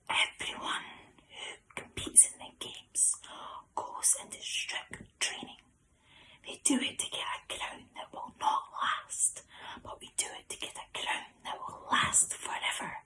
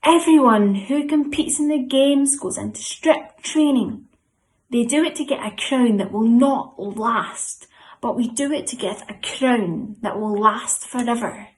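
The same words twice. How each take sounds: First: Hushed, whispered verse recitation; very quiet whisper. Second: Loud, high-starting group-leader recitation; really loud. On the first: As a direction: whisper it as quietly as you can. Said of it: "I'm gonna say it very quietly". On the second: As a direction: belt out the verse for everyone to join in. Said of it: "we're gonna say it really, really loud". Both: Shown as a demonstration.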